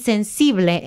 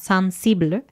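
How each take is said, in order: First: The word is pronounced with Spanish sounds. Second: The word is pronounced with French sounds. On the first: "sensible en español" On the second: "creo que se pronuncia como sensible"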